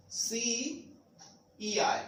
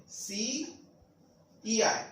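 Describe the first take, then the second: No difference in how they are said.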